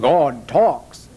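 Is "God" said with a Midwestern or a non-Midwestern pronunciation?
non-Midwestern. "God" has a non-Midwestern pronunciation. "The guy on the radio said"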